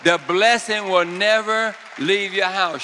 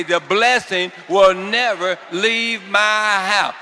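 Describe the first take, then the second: First: Loud and higher, proclaiming; fervent decree before the shout; loud preacher's declaration. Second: Slow, louder shout of faith; full-voiced congregational cry; shouted declaration. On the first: Real, not acted. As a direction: call it out over the room. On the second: Shown as a demonstration. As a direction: shout it out with the crowd. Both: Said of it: "Shout it out".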